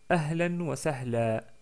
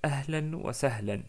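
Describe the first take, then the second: First: The last word ends on a lengthened 'a' vowel. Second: The last word ends with an 'n' sound. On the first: "si on s'arrête sur un tanwin doublement de fatha, ... on s'arrête avec un prolongement de fatha" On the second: "Donc je répète"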